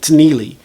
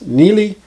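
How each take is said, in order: First: A t sound is heard before the n. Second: No t sound is heard before the n. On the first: The speaker calls it wrong. "It's not like he's saying Tneely" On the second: The speaker calls it right. "Just Neely"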